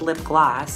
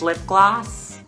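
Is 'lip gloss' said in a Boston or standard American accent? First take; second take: standard; Boston. First: It is said in a standard American accent. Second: It is said in a Boston accent. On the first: "Not to be confused with lip gloss" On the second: "lip gloss with a Boston accent"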